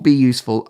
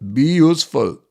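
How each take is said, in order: First: It is said in a plain accent. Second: It is said in an Austrian accent.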